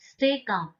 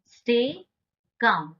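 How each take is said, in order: First: Said in the usual way. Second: "stay", a clear pause, then "calm"; word-by-word model. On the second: Shown as a demonstration. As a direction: split "stay" and "calm", rising on "stay", falling on "calm". Teacher repeats it word by word.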